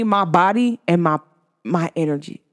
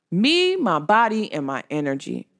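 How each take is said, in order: First: Said in the usual way. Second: "Me, my body, and my energy" said slowly, each word set apart; slow, deliberate repeat that trails off quiet; slow emphasis. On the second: Shown as a demonstration. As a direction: lay out Me and my body slowly, then let "energy" sink soft.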